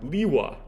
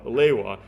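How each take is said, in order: First: The first syllable sounds like 'lee'. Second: The first syllable sounds like 'lay'. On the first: "he would pronounce it Liwa" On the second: "a pronunciation guide from two thousand three that said that Leiwa was pronounced"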